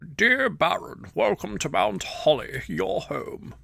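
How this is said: It is read in a put-on old man's voice.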